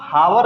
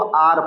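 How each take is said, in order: First: The word begins with an h sound. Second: The word begins with a vowel sound. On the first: The speaker calls it wrong. "इसको हावर नहीं पढ़ते हैं" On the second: The speaker calls it right. "इसको आर पढ़ते हैं, सिर्फ आर"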